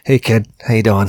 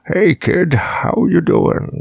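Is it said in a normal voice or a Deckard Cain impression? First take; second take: normal voice; Deckard Cain. First: It is said in his normal voice. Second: It is said imitating Deckard Cain's voice.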